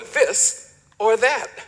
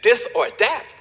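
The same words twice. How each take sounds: First: The words begin with a TH sound. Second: The words begin with a D sound. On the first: "for this or that" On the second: "the T H is substituted with a D, as in this or that"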